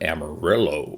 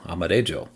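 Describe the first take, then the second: First: It is pronounced the American English way. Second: It is pronounced the Spanish way. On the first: The speaker calls it wrong. "we American cowboys decided to take that word and call it Amarillo" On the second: The speaker calls it right. "the correct pronunciation is the Spanish word for yellow"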